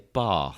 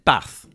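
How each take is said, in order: First: It is said in a posh southern English accent. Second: It is said in a northern English accent. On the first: The speaker calls it wrong. "those posh arseholes in the south, pronounce everything with like a" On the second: The speaker calls it right. "if they said uh"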